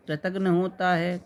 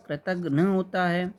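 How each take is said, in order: Both takes have the same delivery.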